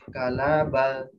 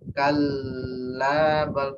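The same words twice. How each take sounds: First: The L is single and short. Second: The L is held far too long. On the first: "L-nya satu" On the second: "L ada buahnya, lebih dari dua"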